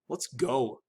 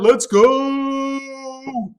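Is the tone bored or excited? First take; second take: bored; excited. First: It is said in a bored, flat tone. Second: It is said in an excited, lively tone. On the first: The speaker does not want to watch the game. "bored by the prospect of watching a football game" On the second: The speaker is eager to watch the game. "I'm excited, the game's gonna go, we can't wait to watch it"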